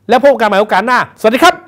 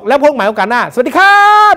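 First: The final syllable is short and clipped. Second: The final syllable is drawn out long. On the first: The speaker calls it right. "ก็จบเลย" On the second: The speaker calls it wrong. "อย่างนี้มันผิด"

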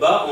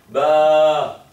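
First: The vowel is short. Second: The vowel is held long. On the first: "Au lieu de dire ba" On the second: "on va tirer un peu. C'est-à-dire, on va prendre plus de temps"

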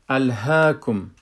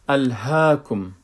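Both takes have the same delivery.

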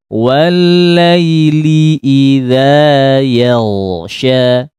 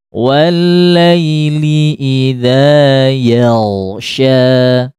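The two takes are said the same way.

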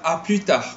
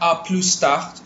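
First: The S at the end of plus is silent. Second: The S at the end of plus is pronounced. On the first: The speaker calls it right. "sebutan dia adalah A plus tard" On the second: The speaker calls it wrong. "Korang ada pronounce dia punya S. Dia bukan A plus tard"

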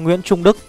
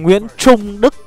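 First: The Tr in Trung is said lightly, Northern style. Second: The Tr in Trung is said with standard pronunciation. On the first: The speaker calls it wrong. "người miền Bắc chúng tôi là phát âm nó chưa được chuẩn cho lắm" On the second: The speaker calls it right. "Đấy thì nó mới chuẩn"

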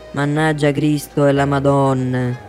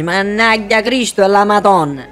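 First: It is said lightly, as a casual exclamation. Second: It is said forcefully, as a real curse. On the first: It is not a real blasphemy. "non è una yastema" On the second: It is a real blasphemy. "Allora sì che è una yastema"

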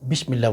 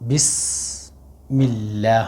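First: The middle consonant is a 'sh' sound. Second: The middle consonant is an 's' sound. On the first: The speaker calls it wrong. "বিসমিল্লাহ বলে এটা শিন হয়ে যাবে" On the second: The speaker calls it right. "এখানে আসা সিন"

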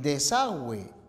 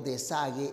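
First: A 'w' sound follows the g. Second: No 'w' sound follows the g. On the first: The speaker calls it right. "de la misma manera" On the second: The speaker calls it wrong. "serían también pronunciaciones incorrectas"

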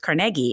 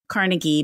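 First: The name is said the Scottish way. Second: The name is said the common American way. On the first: "in Scotland, where he came from, it's Carnegie, and that's what a lot of people prefer saying" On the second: "In America, it's often Carnegie"

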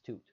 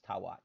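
First: The word is one syllable with a long u. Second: The word is two syllables with a w sound. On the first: This is a simplified conventional reading. "approximate W's as U's because it makes it sound nicer as toot" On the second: This is the likely reconstructed ancient pronunciation. "the most likely pronunciation of that is tawat"

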